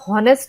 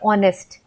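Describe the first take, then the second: First: The word begins with an h sound. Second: The word begins with a vowel sound. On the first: The speaker calls it wrong. "हम हॉनरी या हॉनेस्ट नहीं बोलते" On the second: The speaker calls it right. "हम बोलते हैं ऑनेस्ट"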